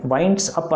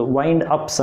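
First: వైండ్స్ అప్ with the s after wind; incorrect plural. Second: వైండ్ అప్స్ with the s at the end; correct plural. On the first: Teacher shows what not to say, వైండ్స్ అప్ with s mid-phrase. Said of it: "అనకూడదు". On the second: Teacher corrects the plural, వైండ్ అప్స్ with final s. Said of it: "అనాలి". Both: Shown as a demonstration.

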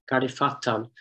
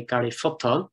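First: Fatton with an open A vowel; Gardy Fatton, A rather than U in Fatton; reconstructed form. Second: Futton with a short U as in "foot"; Gardy Futton, first vowel of Futton rounded to U; local pronunciation. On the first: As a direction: say Fatton with A as in "fat". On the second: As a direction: say Futton, not Fatton. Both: Shown as a demonstration. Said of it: "which was pronounced probably locally".

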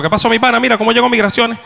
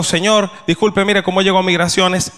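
First: Rapid Venezuelan slang. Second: Careful and polite. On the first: What he really said to the vendor, fast Venezuelan slang. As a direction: rattle it off quick and higher, "mi pana" run together. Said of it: "A una velocidad increíble". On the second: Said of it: "Eso fue lo que yo creía haber dicho". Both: Shown as a demonstration.

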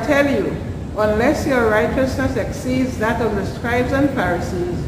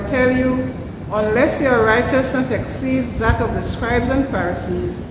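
No difference in how they are said.

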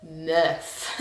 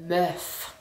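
First: "Meuf" said low and drawn with distaste; mock disgusted "Meuf"; disdainful meuf. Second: Said in the usual way. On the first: Shown as a demonstration. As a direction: grimace through "Meuf". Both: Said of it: "ugh, as a word".

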